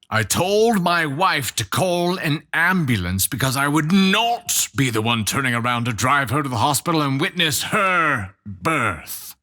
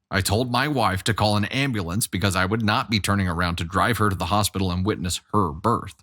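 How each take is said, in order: First: It is read slowly with grave, heavy emphasis. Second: It is read in a casual, plain way.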